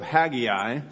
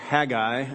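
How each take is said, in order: First: The name is said the non-British way. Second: The name is said the British way.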